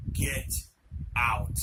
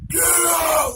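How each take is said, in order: First: Two separated, drawn-out words; slow menacing command, pause between words; scary demonic voice. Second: High, full-force scream; loud scary shout. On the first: Possessed friend staring over at the boys, scary voice. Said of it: "scary ass, holy shit type of voice". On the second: Possessed friend ordering the boys out again, screamed loud. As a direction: shriek it as loud as possible. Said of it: "Loud as could be". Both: Retold or imitated.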